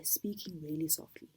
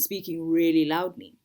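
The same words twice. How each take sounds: First: Speaking softly. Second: Speaking loudly. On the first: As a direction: drop into a soft, hushed delivery. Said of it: "by speaking really softly". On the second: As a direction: swell into a loud, projected voice. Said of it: "versus speaking really loudly". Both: Shown as a demonstration.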